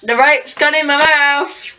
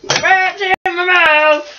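First: Talking around rope in mouth; muffled by rope over lips; mouth obstructed. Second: Slow, muffled by rope over lips; mouth obstructed. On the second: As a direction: talk through the rope in your mouth. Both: Real, not acted.

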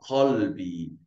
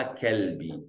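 First: Qalbi drawn out, Q from deep in the throat; slow, careful Qalbi with a throat-made Q; throaty Arabic Q. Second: Kelbi slowly, with an ordinary front K; plain K sound. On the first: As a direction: start Qalbi with a guttural back Q. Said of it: "Escuta aqui de pronunciar". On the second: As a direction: say Kelbi with a simple K instead of a throaty Q. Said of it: "não é Kelbi". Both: Shown as a demonstration.

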